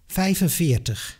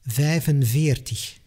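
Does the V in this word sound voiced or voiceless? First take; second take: voiceless; voiced. First: The V sounds voiceless, close to an F. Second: The V sounds voiced, like a true V. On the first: This is how people in the Netherlands say it. "a Dutchman would say" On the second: This is how people in Belgium say it. "a Belgian would say"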